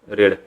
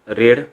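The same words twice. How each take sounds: The two takes are said the same way.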